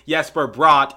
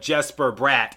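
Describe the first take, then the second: First: The name is pronounced in its native-language way. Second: The name is pronounced in an anglicized way. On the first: It follows the pronunciation of his native language. "I like to say Jesper Bratt" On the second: It follows the common English pronunciation. "instead of Jesper Bratt"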